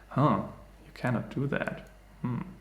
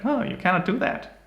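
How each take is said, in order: First: It is said in a sultry, sexy voice. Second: It is said in a childish voice.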